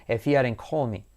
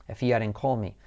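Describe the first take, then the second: Both takes have the same delivery.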